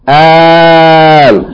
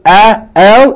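First: The opening vowel is drawn out long. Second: The opening vowel is short. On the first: A question hamza is joined to the article. "Elongate, Hamza al-Fatta, elongated" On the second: It is the plain definite article. "instead of A-L"

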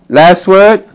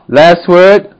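The two takes are said the same way.

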